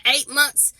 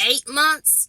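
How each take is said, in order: First: "Eight months." stated firmly with a falling tune; confirming fall. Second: "Eight months?" asked with a rising, unsure tune; questioning rise. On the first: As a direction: settle it, landing down on "months". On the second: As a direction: count it up as a question, voice lifting on "months". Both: Shown as a demonstration.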